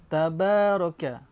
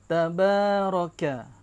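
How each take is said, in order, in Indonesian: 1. Vokal panjang dibaca selama dua ketukan. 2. Vokal panjang dibaca selama dua ketukan.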